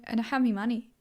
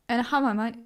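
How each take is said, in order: First: "me" for "my", British style; British accent. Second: "my" pronounced to rhyme with "eye"; "my", not "me". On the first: Showing off an accent she likes, playful British. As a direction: put on a British accent, saying "me money". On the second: Correcting herself mid accent demo, "my" said as "my". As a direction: say "my" with its full eye vowel. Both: Shown as a demonstration. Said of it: "say me instead of my".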